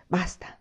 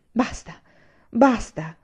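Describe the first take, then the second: First: Soft, resigned self-address; to oneself. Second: Raised-pitch cry of exasperation; exclaiming. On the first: Anania repeats it to himself, quietly. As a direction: say it quietly, only for yourself. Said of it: "ripeté a se stesso". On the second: Anania cuts the grandmother off, exasperated exclamation. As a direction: exclaim it twice, building in force. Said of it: "esclamò egli". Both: A narrator's reading.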